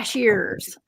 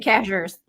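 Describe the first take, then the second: First: The middle 'ie' sound is pronounced. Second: The middle 'ie' sound is dropped. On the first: It follows the spelling. "C A S H I E R S, like cashiers" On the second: It is how a Southern speaker says it. "I say cashers"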